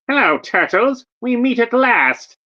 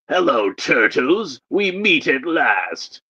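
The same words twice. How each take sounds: First: It is said in a put-on Skeletor voice. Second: It is said in a put-on Shredder voice. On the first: The villain speaking is Skeletor. The speaker calls it right. "that's Skeletor saying that" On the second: The villain speaking is Shredder. The speaker calls it wrong. "I see Shredder in the picture, so I did the Shredder voice"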